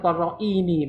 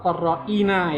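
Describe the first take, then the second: First: The word ends with a 'ni' sound. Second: The word ends with a 'na' sound. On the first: The speaker calls it wrong. "bukan korroini" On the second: The speaker calls it right. "Jadi ini bacanya adalah korrouna atau korroina ya"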